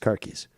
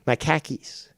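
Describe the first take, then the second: First: It is said in a general American accent. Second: It is said in a Boston accent.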